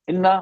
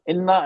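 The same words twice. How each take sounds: The two takes are said the same way.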